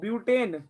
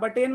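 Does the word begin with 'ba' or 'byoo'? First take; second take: byoo; ba. First: The first syllable is said as 'byoo'. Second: The first syllable is said as 'ba'. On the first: The speaker calls it right. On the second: The speaker calls it wrong. "बटेन मत कह देना इसको"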